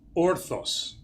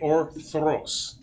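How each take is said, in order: First: It is said without an R after the T. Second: It is said with an R after the T. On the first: The speaker calls it wrong. "most Greeks pronounce it orthos" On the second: The speaker calls it right. "so the R is important"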